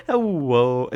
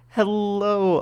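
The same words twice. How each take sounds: First: "Hello" said loudly as heh-WOH; loud "Hello" with a W in place of the L; mispronounced L. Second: "Hello" high and loud with a clear L; tongue up for a proper L in "Hello"; loud, high "Hello", the L properly made; correct L sound. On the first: Real, not acted. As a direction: swap the L in "Hello" for a W. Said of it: "now I can't even say it properly". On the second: Shown as a demonstration. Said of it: "Now I can say it".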